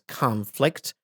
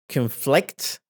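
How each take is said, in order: First: The stress is on the first syllable. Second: The stress is on the second syllable. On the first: It is used as a noun. "Here as a noun, and it's conflict" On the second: It is used as a verb. "which means يتعارض, and it's a verb"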